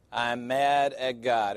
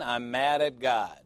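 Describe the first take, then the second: First: Slow, with the weight on "mad"; "I'm mad at God" drawn out with stress on "mad"; slow emphatic repeat. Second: Said in the usual way. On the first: Shown as a demonstration. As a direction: lean on "mad" and take your time. Title repeated slowly for weight.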